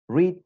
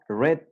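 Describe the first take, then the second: First: The word has a long vowel, like 'reed'. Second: The word has a short vowel, like 'red'. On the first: It is the present tense. "Read, leer, tiempo presente" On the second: It is the past tense. "El pasado va a ser red, como el color rojo"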